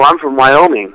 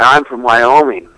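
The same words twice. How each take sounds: First: It is spoken at a normal pace. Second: It is spoken very slowly and drawn out.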